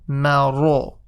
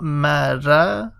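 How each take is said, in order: First: The r is heavy, with a full mouth. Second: The r is light, with a thin mouth. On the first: The speaker calls it right. "make sure you make the ra full mouth" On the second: The speaker calls it wrong. "So not mara"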